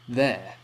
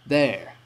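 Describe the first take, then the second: First: The R sound is subtle, barely pronounced. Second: The R sound is strongly pronounced. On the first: "British people are more likely to say" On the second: "while Americans might say"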